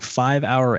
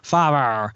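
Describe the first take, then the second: First: The two words are said clearly and separately. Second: The two words are blended into one syllable pair. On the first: The speaker calls it right. "I'm pronouncing it like a human being" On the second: The speaker calls it wrong. "they always just like mash it together"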